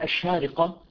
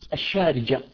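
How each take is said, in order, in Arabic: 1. تُلفظ الكلمة بصوت q. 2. تُلفظ الكلمة بصوت j.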